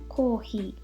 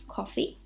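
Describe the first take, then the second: First: It is said with Japanese pronunciation. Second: It is said with English pronunciation.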